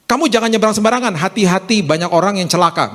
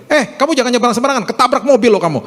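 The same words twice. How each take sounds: First: High pitch easing down into advice; milder concerned parent, less forceful; acted careful parental warning. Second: Fast, high-pitched threatening warning; mock harsh telling-off, pitched way up; acted parental scolding. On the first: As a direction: caution a child without threatening. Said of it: "Beda kan langsung". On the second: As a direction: snap at a child as an alarmed parent. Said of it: "Seringkali kita ngomong gini sama anak kita".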